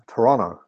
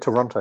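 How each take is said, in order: First: The T sounds are dropped, local style. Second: Every T sound is clearly pronounced.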